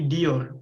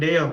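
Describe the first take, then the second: First: The first vowel is an i sound. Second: The first vowel is an e sound. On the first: The speaker calls it right. "tapi diyor" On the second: The speaker calls it wrong. "bukan deyor"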